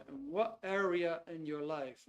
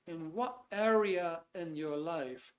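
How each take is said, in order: Both takes have the same delivery.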